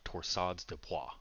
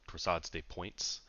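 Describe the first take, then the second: First: The last word is said with French sounds. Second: The last word is said with English sounds.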